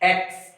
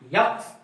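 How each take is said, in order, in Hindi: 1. यह सीधे स्वर से शुरू होता है। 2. यह y ध्वनि से शुरू होता है। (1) "सही उच्चारण इसका एक्स है" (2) "इसे क्या बोलते हैं कंफ्यूज कुछ लोग रहते हैं यक्स"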